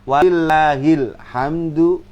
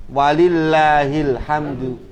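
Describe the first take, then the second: Both takes have the same delivery.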